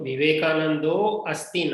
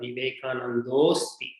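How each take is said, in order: First: The two words are said separately, unmerged. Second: The two words merge, dropping the initial vowel. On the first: The speaker calls it wrong. "so Vivekanando asti na" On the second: The speaker calls it right. "O plus I is Purva Rupa Sandhi. Therefore, that becomes"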